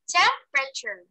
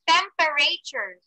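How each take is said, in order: First: The middle E vowel is dropped. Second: The middle E vowel is clearly pronounced. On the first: The speaker calls it right. "so you didn't hear the letter E sound" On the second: The speaker calls it wrong. "I didn't say temperature"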